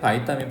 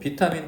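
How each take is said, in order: First: The first syllable has an 'eye' vowel. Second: The first syllable has a plain 'ee' vowel. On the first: "바이타민이라고 읽어도 되는데" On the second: "비타민이라고 읽어도 되고"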